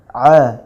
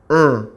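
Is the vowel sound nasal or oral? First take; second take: oral; nasal. First: The vowel is said without air through the nose. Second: The vowel is said with air through the nose. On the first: The speaker calls it right. "H itu tidak masuk ke hidung" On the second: The speaker calls it wrong. "kalau misalnya masuk ke hidung"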